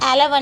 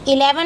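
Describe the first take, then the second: First: The word begins with an 'eh' vowel. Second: The word begins with an 'ee' vowel. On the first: The speaker calls it right. "एलेवन बोलोगे" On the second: The speaker calls it wrong. "इलेवन मत बोलो"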